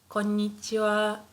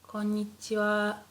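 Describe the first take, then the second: Both takes have the same delivery.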